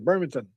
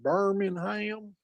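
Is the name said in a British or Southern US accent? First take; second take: British; Southern US. First: It is said in a British English way. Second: It is said in a Southern US way.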